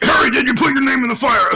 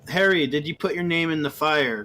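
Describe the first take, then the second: First: It is said aggressively and loudly. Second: It is said calmly and quietly.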